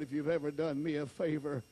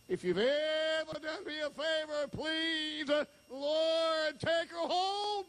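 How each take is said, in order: First: Said in the usual way. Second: Desperate plea. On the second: Retold or imitated. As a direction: beg God with everything you have. Retold desperate prayer to Lord.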